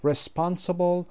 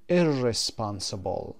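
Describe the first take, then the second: First: Said in the usual way. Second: Slow, say "ir" clearly at the start of "irresponsible"; "irresponsible" with ir- prefix. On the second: Shown as a demonstration. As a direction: stretch out "irresponsible" with the prefix audible. ("irresponsible" آهسته با پیشوند ir) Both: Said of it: "با آی آر".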